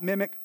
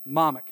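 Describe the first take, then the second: First: "mimic" with a short i in the first syllable; wrong word, mimic. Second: "momic" with an open "mom" first syllable; local word momic. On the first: Teaching what the word is not, "mimic" with short i. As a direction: say "mimic" as in copying someone. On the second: Teaching visitors the island word, "momic" starting like "mom". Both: Shown as a demonstration. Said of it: "Yeah, not mimic".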